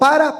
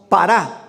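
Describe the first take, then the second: First: The stress is on the first syllable. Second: The stress is on the last syllable. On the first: It is the ordinary Spanish word. "así como para" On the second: It is the Greek preposition meaning beside. "pero con acento en la para"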